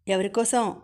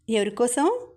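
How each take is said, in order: First: Said in the usual way. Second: Teasing ఎవరికోసం? with a light rising end; mischievous question. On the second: A narrator's reading. (స్నేహితుడిని ఆటపట్టిస్తూ, కొంటెగా పైకి లేచే స్వరంతో అడగడం) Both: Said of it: "కొంటెగా అడిగాడు".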